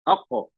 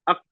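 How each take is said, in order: First: The final consonant is released with a bouncing echo. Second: The final consonant is stopped abruptly with no echo. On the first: The speaker calls it right. "ये हो गया कलकला। आवाज को पलट के आना।" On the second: The speaker calls it wrong. "वही हमने काट दिया आवाज को। गलत हो जाएगा।"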